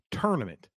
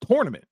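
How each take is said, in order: First: TOURNAMENT starting like turn; TUR pronunciation. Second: TOURNAMENT starting like tore, pitched high; TOR pronunciation. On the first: Retold or imitated. Host reporting his wife's version, TUR pronunciation of TOURNAMENT. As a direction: say tournament with an er vowel. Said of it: "you should say tournament". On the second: Shown as a demonstration. Host arguing with his wife's version, TOR pronunciation of TOURNAMENT. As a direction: say tournament with an or vowel. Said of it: "T O U R, tournament".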